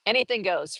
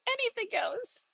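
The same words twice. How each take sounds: First: Said in the usual way. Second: Tiny, very high voice; high little singsong, rising at the end; playful squeak. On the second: Pretend. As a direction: repeat it in a teasing high squeak. Playful high repeat of line.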